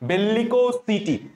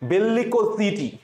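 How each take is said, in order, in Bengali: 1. এই শেষাংশটি s ধ্বনি দিয়ে শুরু হয়। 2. এই শেষাংশটি z ধ্বনি দিয়ে শুরু হয়। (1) "তুমি সিটি উচ্চারণ করো সমস্যা নাই" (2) "আমি এই জন্য উচ্চারণ করার সময় জিটি উচ্চারণ করতাম"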